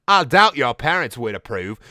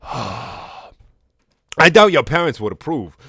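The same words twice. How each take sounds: First: Put-on Garnet in an amateur British accent; mock British character voice. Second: Slow, loud, exaggerated Cockney; hammed-up Cockney Garnet; Cockney accent. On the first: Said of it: "do a British accent for Garnet". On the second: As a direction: lay on a thick mock Cockney, higher and drawn out. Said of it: "here's a Cockney accent for Garnet".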